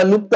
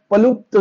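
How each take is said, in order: First: लुप्त begun directly on l; "लुप्त" pronounced lupta; read as लुप्त. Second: पलुप्त with a p sound before lupta; "पलुप्त" pronounced pa-lupta; read as पलुप्त. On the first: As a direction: say लुप्त with no p before the l. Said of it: "याला लुप्त आपण वाचलं". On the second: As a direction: put a p in front: पलुप्त. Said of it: "पण याला कसं वाचतात". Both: Shown as a demonstration.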